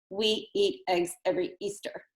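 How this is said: It is broken up with breaks between words.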